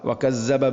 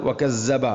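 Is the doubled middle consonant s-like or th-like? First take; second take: s-like; s-like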